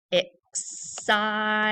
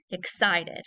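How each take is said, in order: First: "Excited" slowly broken into three beats, middle one stretched; split into syllables. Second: Said in the usual way. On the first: Shown as a demonstration. Teacher showing each part we hear, "Excited" in three separated syllables. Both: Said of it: "Let's move a tile up for each".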